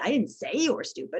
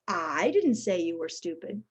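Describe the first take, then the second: First: The stress falls on the word say. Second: The stress falls on the word I. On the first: It was thought but not said. "I think you were stupid, but I didn't say it" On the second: Someone else said it. "suggests somebody else did"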